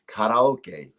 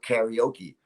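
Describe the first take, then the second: First: It is pronounced the original Japanese way. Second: It is pronounced the American English way. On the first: This is the original form of the word. The speaker calls it right. "it's karaoke" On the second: This is how Americans say it. The speaker calls it wrong. "Americans, you know, they go, yeah, I'm going to go karaoke"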